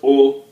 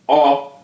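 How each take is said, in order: First: The vowel is said with a closed o sound. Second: The vowel is said with an open o sound. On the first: The speaker calls it wrong. "not O" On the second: The speaker calls it right. "look at the dot under the O. So it sounds O"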